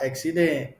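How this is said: It is said in a Bengali accent. The speaker calls it wrong. "बंगाली कैसे बोलेगा"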